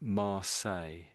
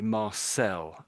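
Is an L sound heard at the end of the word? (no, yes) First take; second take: no; yes. First: The word ends with no L sound. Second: The word ends with a clear L sound. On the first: "I'm basically saying Mar say" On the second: "some Americans might say Marcel"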